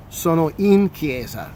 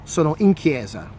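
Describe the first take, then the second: First: Slow, careful model of "Sono in chiesa"; slow repeat. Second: Said in the usual way. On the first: Shown as a demonstration. Teacher repeating "Sono in chiesa" slowly for students. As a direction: spell it out slowly for learners. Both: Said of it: "in the sense that I'm in the church".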